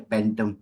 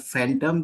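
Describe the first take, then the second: First: The word begins with a p sound. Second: The word begins with an f sound. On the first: The speaker calls it wrong. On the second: The speaker calls it right.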